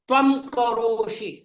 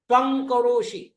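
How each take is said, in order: First: The first word ends in a lip-closed m sound. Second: The first word ends in a velar ng sound. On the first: "यहां मैं प वर्ग के अंतिम वर्ण का यानी अनुनासिक वर्ण का उच्चारण कर रहा हूं" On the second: "यहां मैं क वर्ग के पंचम वर्ण का उच्चार कर रहा हूं, क ख ग घ ङ"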